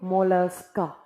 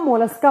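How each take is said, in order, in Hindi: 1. शब्द नरमी और कोमलता से बोला गया है। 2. शब्द कठोर और ज़ोर से बोला गया है। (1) "मोलस्का को बोलिए मोलस्का, एकदम सॉफ्टली बोलिए" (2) "मोलस्का को मोलस्का मत बोलिए"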